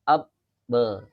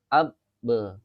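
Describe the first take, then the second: Both takes have the same delivery.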